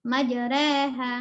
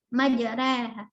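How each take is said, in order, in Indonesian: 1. Vokal setelah r ada di antara a dan e. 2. Vokal setelah r ada di antara a dan e.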